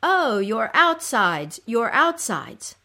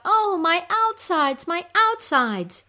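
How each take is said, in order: First: Slow, slightly raised lament; echoed cry. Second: High, loud, drawn-out wail; moaning cry. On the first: Creatures crying along with the suffering queen, echoed cry. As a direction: cry along with her, drawing it out. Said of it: "you will also cry". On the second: Goddess crying out in her pain, moaning cry. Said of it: "when she cries out". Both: Acted.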